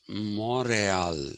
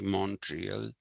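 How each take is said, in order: First: It is said with a French pronunciation. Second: It is said with the speaker's own English pronunciation. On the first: This is the original local pronunciation. "actually the French pronunciation of that was Montreal" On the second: This is how the speaker's own community says it. "we say Montreal"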